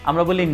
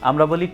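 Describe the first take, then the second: The two takes are said the same way.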